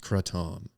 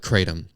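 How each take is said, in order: First: It is said with a non-American pronunciation. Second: It is said with an American pronunciation. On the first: "it is actually pronounced kratom" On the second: "you can say it like an American and call it kratom"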